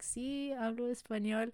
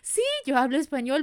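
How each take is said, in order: First: It is said with reluctance. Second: It is said with enthusiasm.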